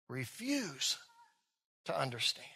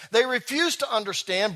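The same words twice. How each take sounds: First: Softer, lower echo; quiet repeat. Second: Said in the usual way. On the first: Shown as a demonstration. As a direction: hush it as a reflective echo.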